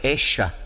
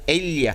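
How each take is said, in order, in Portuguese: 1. A consoante do meio soa como sh. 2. A consoante do meio soa como um y. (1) "lá é echa" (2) "em vez de falar ella"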